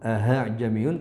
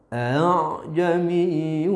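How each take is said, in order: First: The second hamza sounds like an h. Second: The second hamza is softened and drawn out. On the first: The speaker calls it wrong. "tidak boleh juga dibaca dengan ha'jamiyun" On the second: The speaker calls it right. "tasil diseret"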